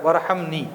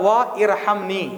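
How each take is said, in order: First: The two words run together into one. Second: The two words are said separately. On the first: "वा के साथ मिलाएंगे तो वर हो जाता" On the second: "वरना वा इरहमनी"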